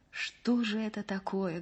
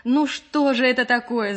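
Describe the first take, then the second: First: Soft, lost wondering; quietly baffled murmur; bewildered. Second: Raised, louder exasperation; high, loud and fed up; vexed. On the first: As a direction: ask it softly, at a loss. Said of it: "говорила растерянно Маша". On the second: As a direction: burst out in annoyance. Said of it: "с досадой сказала Маша". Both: A narrator's reading.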